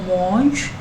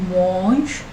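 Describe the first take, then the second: Both takes have the same delivery.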